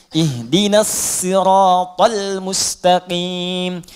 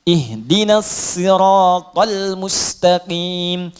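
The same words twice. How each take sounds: The two takes are said the same way.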